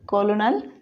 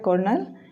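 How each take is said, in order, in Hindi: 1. इसमें तीन अक्षर हैं, और यह 'kol' से शुरू होता है। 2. इसमें दो अक्षर हैं, और यह 'ker' से शुरू होता है। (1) "इस तरह से लिखा जाता है" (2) "इस तरह से बोला जाता है"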